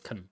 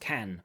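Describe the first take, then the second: First: The word is said with a reduced weak vowel. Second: The word is said with a full vowel. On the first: "Suddenly that can becomes a can" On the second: "that's the full form can"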